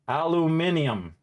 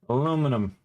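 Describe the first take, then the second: First: It has an extra vowel before the ending. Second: It has no extra vowel before the ending. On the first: "British way of saying aluminum" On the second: "the way you say American English"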